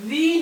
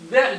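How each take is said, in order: First: "the" said with a long ee, thee; "the" pronounced thee. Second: "the" said with a short schwa, thuh; "the" pronounced thuh. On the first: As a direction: say "the" as thee, the form used before a vowel. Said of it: "theになります". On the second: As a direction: say "the" as thuh, the form used before consonants. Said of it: "theじゃなくて". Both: Shown as a demonstration.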